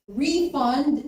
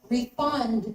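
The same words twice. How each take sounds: First: The stress is on the first syllable. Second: The stress is on the second syllable. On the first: It is a noun. "is a noun" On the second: It is a verb. "is a verb"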